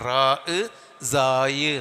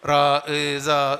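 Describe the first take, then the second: First: The second name ends in an 'ay' glide. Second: The second name ends in an open 'ah' sound. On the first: The speaker calls it right. "സായി എന്നാണ്" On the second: The speaker calls it wrong. "അങ്ങനെയല്ല"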